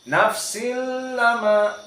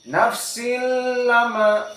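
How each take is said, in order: Both takes have the same delivery.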